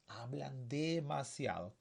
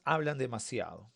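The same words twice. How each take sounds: First: Slow, stretched-out "demasiado"; drawn-out repetition. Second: Said in the usual way. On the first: Shown as a demonstration. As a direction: draw out "demasiado" to point it out. Teacher repeats to point out adverb.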